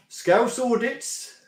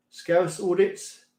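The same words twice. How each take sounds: First: Slow, amused read with a laugh, a bit higher. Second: Said in the usual way. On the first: Real, not acted. Streamer reading a viewer's name to chat, slowly and amused. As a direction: chuckle while reading the odd name out.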